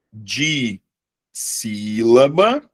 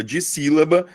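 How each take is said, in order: First: Drawn-out, split syllables in "de sílaba". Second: Said in the usual way. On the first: Shown as a demonstration. Teacher spells out a term for the class, syllable by syllable. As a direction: stretch "de sílaba" slowly, rising at the end.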